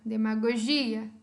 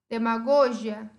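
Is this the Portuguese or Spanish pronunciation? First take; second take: Portuguese; Spanish. First: It is said with Portuguese word stress. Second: It is said with Spanish word stress.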